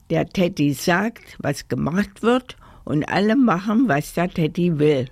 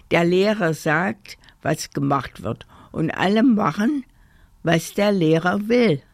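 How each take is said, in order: First: Teasing singsong echo; cheeky mimicry. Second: Self-important teddy laying down rules; grumbled explanation. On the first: Kasper mocks teddy's rule, cheeky echo. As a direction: parrot the rule with mock importance. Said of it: "rief Kasper". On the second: Teddy explains school rules to the toys, self-important. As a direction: lay it out with authority. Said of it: "brummte der Teddy". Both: A narrator's reading.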